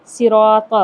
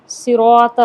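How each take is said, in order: First: صراط with a thin seen instead of saad, slow; صراط thin and drawn out, the wrong way; wrong pronunciation. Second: صراط with a thick heavy saad, loud; صراط, saad always thick as taught; correct pronunciation. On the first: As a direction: say صراط with a light s, the mistake. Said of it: "سین سے صراط". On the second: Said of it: "صاد ہمیشہ موٹا پڑھا جاتا ہے". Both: Shown as a demonstration.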